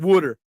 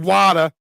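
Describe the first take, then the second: First: The first vowel sounds like 'oo'. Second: The first vowel sounds like 'ah'. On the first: This is how the speaker says it. "and I'm saying wooder" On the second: This is how the other person says it. "You're saying wada"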